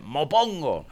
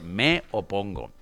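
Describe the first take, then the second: First: The two words are merged into one, dropping a vowel. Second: The two words are said separately, with every vowel. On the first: The speaker calls it wrong. "masacrar y destrozar el idioma" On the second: The speaker calls it right. "si dice, me opongo"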